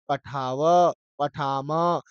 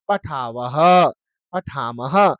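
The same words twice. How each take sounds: First: पठाव, पठाम ending on an open vowel, no "ha"; visarga dropped. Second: पठावः, पठामः with a breathed "ha" echo ending each; visarga pronounced. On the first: Teacher showing students the correct endings, पठाव, पठाम without final "ha". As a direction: end पठाव and पठाम without any breathed echo. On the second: Teacher contrasting endings for students, पठावः, पठामः with audible final "ha". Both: Shown as a demonstration. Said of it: "विसर्ग का उच्चारण नहीं करना".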